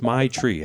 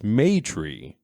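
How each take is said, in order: First: The first syllable sounds like 'my'. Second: The first syllable sounds like 'may'. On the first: The name sounds like slang for marijuana. "So I said my tree for the longest time" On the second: The name is short for matriarch. "it's pronounced Maytree, as in short for matriarch"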